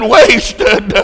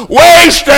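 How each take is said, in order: First: High, drawn-out wail, acted sob; sobbed cry. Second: Stammered run-up into a high, loud cry; anguished scream. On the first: Dying Charlie falling back on the bed, sobbing it. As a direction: cry it out brokenly, a little less forceful than a scream. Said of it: "Then he sobbed and said". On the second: Dying Charlie crying toward heaven, screaming in anguish. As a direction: scream it out with your last breath. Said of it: "he screamed out". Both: A narrator's reading.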